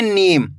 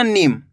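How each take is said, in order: First: नीम with a long, held ee; drawn-out vowel. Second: नीम cut to a short i, "nim"; short vowel. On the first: Teacher shows learners the right reading, नीम drawn out. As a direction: stretch the ee in नीम. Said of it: "बड़ी ई की मात्रा को खींच के पढ़ा जाता है". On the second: Teacher warns against this wrong reading, नीम with a short i. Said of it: "ऐसे नहीं पढ़ना". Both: Shown as a demonstration.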